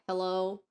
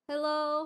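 First: It is said at a lower, normal pitch. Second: It is said at a higher pitch.

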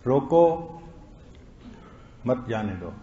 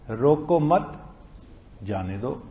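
First: The pause comes right after 'roko'. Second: The pause comes right after 'mat'.

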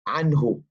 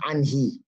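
First: The word ends with a 'u' vowel. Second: The word ends with an 'i' vowel. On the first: The speaker calls it right. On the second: The speaker calls it wrong. "But it's not anhi"

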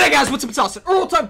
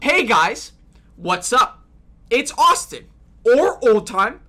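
First: The words are said quickly at normal pace. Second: The words are said very slowly and deliberately.

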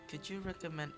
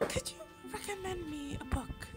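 First: It is said without a put-on girl voice. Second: It is said in a put-on girl voice.

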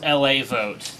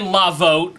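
First: The first part is spelled out as letters, L-A. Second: The first part is said as one word, 'la'. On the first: It stands for Los Angeles. The speaker calls it right. "I'm being notified that it's LA vote" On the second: The website is read as French. The speaker calls it wrong. "That's French"

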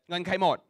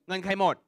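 The two takes are said the same way.

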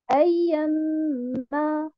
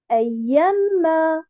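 First: The syllable 'ya' is not stressed. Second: The syllable 'ya' is stressed. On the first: The speaker calls it right. "je ne mets pas un nabr sur harakat lya" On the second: The speaker calls it wrong. "je ne dis pas ayyama. Non, ça, c'est faux"

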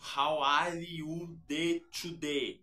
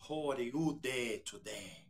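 First: It has a strong Brazilian Portuguese accent. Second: It has only a light Brazilian accent. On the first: This is how Brazilians really tend to speak English. "Você não vai ouvir um brasileiro falando assim" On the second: This is how films portray Brazilians speaking English. "Eles vão falar How are you today? ... vai ter um tchê aqui e ali, mas não é tão aparente"

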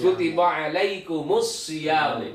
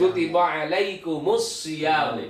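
First: The m links into 'mus' with a vowel. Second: The m links into 'mus' with a vowel.

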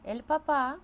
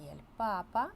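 First: The stress is on the last syllable. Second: The stress is on the first syllable. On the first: It means dad. "це тато" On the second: It means the Pope. "це папа римський"

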